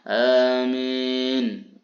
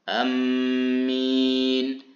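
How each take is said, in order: First: The long first vowel leans toward an e sound. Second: The first vowel is short and m is doubled. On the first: "membaca panjang hamzahnya a dan dibaca imalah" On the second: "membaca pendek hamzahnya dan mentasydidkan huruf mimnya"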